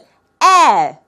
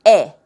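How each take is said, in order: First: The vowel is said with a wider mouth. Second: The vowel is said with a narrower mouth. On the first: "하지만 영어로는 에" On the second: "우리말은 에"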